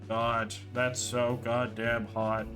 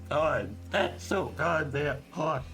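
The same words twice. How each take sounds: First: It is read in a flat, dead monotone. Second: It is read in an imitated robot voice. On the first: "I'm going to read it in the most monotone, dead voice I can possibly do" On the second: "I'll go robot"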